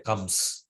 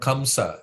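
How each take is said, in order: First: The word ends without the final vowel. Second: The word ends with the final vowel sounded. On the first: The speaker calls it wrong. "they will drop the A" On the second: The speaker calls it right. "the A needs to be pronounced"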